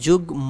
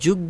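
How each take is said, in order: First: The m sound is clearly pronounced. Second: The m sound is dropped, consonant doubled. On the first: The speaker calls it right. "এটা যুগ ম ম থাকবে" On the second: The speaker calls it wrong. "যুগ্য বলবো না"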